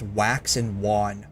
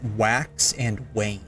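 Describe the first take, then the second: First: The last word sounds like 'wand' without the D. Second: The last word does not sound like 'wand'. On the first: The speaker calls it wrong. "I had always pronounced it as wax and wan" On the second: The speaker calls it right. "no, Cat, it's wax and wane"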